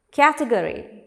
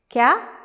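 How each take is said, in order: First: Said in the usual way. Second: "Category" beaten out in four separate pieces; syllable by syllable. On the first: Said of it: "How many syllables?". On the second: Shown as a demonstration. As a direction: say "Category" as ca, te, go, ry with a gap after each. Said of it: "There are four syllables".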